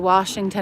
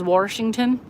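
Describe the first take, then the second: First: It is said in a standard accent. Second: It is said in a Baltimore accent.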